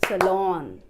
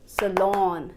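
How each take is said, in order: The two takes are said the same way.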